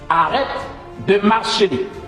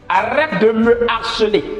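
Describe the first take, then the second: First: 'Me' is merged into 'harceler' as 'marceler'. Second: 'Me' is said as its own full syllable. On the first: The speaker calls it wrong. "c'est une maladresse de dire arrête de marceler" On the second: The speaker calls it right. "on doit forcément dire arrête de me harceler"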